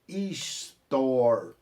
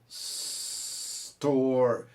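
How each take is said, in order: First: An extra vowel sound comes before the S. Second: The word starts directly with the S. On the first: The speaker calls it wrong. "como o brasileiro fala store" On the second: The speaker calls it right. "é store"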